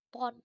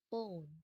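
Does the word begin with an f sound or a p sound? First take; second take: p sound; f sound. First: The word begins with a p sound. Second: The word begins with an f sound. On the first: The speaker calls it wrong. "maka dibacanya bukan pon" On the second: The speaker calls it right. "tapi phone"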